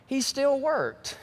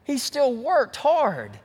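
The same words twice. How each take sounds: First: "still" stressed, slow and deliberate; "He still worked", slowly, leaning on "still". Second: "worked" stressed, slower still, dragged out; "He still worked hard", stretched, punching "worked". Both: Shown as a demonstration. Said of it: "Did y'all get that?".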